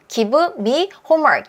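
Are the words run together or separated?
separated. Each word is said separately. The speaker calls it wrong. "그냥 give me homework 이게 아니라"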